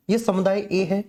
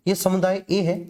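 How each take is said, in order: Both takes have the same delivery.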